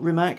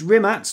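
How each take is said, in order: First: The name ends with a hard k sound. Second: The name ends with a ts sound. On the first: The speaker calls it wrong. "not Rimac" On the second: The speaker calls it right. "so it's Rimac, not Rimac / it's a T sound"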